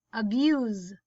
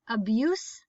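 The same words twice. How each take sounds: First: Abuse as uh-BYOOZ; buzzed z ending. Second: Abuse as uh-BYOOSS; soft s ending. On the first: Teacher reading word list aloud, buzzed z ending. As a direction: end abuse on a voiced z. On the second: Teacher reading word list aloud, soft s ending. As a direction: end Abuse on a hissed s. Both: Shown as a demonstration. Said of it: "both of the different pronunciations".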